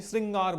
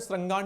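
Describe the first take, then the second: First: "श्रृंगार" said with "ri", as "sringaar"; correct pronunciation shown. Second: "श्रृंगार" said with "ra", as "srangaar"; wrong pronunciation shown. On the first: Teacher gives students the right form, "श्रृंगार" as "sringaar". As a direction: say "श्रृंगार" with a clear ri. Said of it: "श्रृंगार बोलते हैं". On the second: Teacher shows students what not to say, "श्रृंगार" as "srangaar". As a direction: say "श्रृंगार" with an a after the r. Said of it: "श्रृंगार नहीं बोलते हैं". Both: Shown as a demonstration.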